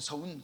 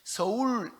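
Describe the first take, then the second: First: The first syllable ends with an n sound. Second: The first syllable ends with an l sound. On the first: The speaker calls it wrong. "서운 그래요" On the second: The speaker calls it right. "서울 그러면"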